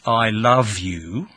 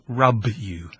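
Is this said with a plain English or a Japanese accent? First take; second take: plain English; Japanese. First: The L and V sounds are pronounced clearly. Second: L becomes R and V becomes B. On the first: "if I wanted to say" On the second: "No L, no V. So"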